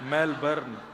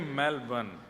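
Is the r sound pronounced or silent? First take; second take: pronounced; silent. First: The r sound is clearly pronounced. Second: The r sound is left silent. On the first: The speaker calls it wrong. "हमारे एक भैया बोले मेलबर्न, जो मैल को जला दे" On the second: The speaker calls it right. "र जो है वो साइलेंट बोलो"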